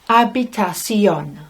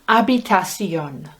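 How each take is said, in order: Both takes have the same delivery.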